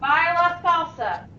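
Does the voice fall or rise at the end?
fall. The voice falls at the end.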